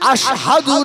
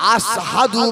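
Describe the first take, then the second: First: The middle consonant is a sh sound. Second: The middle consonant is an s sound. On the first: "আশহাদু না বলে" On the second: "শিনের উচ্চারণটা সিনের মতো করে"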